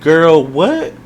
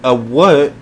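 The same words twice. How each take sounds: First: High, drawn-out disbelief; a puzzled "Girl, what?" with a stretched, high "what"; sassy girl what. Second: "what" spoken like the word "whet"; whet pronunciation. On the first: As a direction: read it like a baffled, sassy note. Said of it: "what I wrote on my paper for Chaos is". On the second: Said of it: "with a W H E T, not a W A T". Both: Shown as a demonstration.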